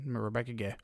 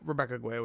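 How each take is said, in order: First: The surname starts with a plain 'g' sound. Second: The surname has a 'gw' sound at the start. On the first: The speaker calls it right. "Oh my bad" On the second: The speaker calls it wrong. "I'm pretty sure you don't pronounce the U"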